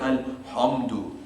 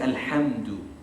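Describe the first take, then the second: First: The h sound is heavy and full-mouthed. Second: The h sound is light and thin. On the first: The speaker calls it wrong. "we don't say alhamdu" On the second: The speaker calls it right. "We say alhamdu. ... you're still kind of smiling"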